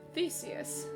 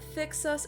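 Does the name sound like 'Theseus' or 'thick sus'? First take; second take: Theseus; thick sus. First: The name is said like 'Theseus'. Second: The name is said like 'thick sus'. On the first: The speaker calls it right. "oh, so it's Theseus" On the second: The speaker calls it wrong. "I literally pronounce it thick sus every stream"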